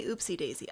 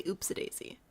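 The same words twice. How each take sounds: First: "Oopsie Daisy" with a clear ee ending OOPSIE; viewer's pronunciation. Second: "Oopsie Daisy" with OOPSIE reduced to oop-suh; Midwest pronunciation. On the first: Streamer quotes viewers' version of the name, oop-see daisy. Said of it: "No, you say Oopsie Daisy". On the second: Streamer answers with own version of the name, oop-suh daisy. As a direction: relax the end of "Oopsie" into uh before "Daisy". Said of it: "I say Oopsie Daisy". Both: Shown as a demonstration.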